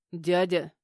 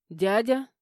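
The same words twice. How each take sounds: First: Firm, restrained warning to an uncle; reproof. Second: Louder, rising, startled query; shocked question. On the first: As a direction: say it as a check, not a question. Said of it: "одёрнул его Игнат". (одёргивая, с укором) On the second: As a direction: ask it in disbelief, pitch going up. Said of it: "Этот вопрос прозвучал в два голоса". (изумлённо, с вопросительной интонацией) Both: A narrator's reading.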